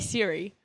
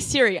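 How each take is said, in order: First: It sounds softer, without the old-fashioned Australian accent. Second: It sounds harsh, like an old-fashioned Australian accent. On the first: "I say Siri" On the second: "You say Siri"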